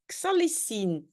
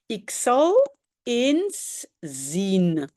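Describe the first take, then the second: First: The words run together in one contracted form. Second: Each word is said fully and separately.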